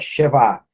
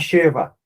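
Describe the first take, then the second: First: The stress is on the last syllable. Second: The stress is on the first syllable. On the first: The speaker calls it right. "a sílaba tônica está na última sílaba" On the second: The speaker calls it wrong. "não é Sheva"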